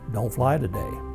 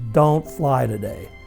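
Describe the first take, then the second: First: It is said somewhat louder than before. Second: It is said loudly, almost yelled.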